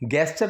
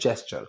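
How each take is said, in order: First: The word begins with a hard g sound. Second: The word begins with a j sound. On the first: The speaker calls it wrong. "गेस्चर नहीं" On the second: The speaker calls it right. "इसकी जो pronunciation that is जेस्चर"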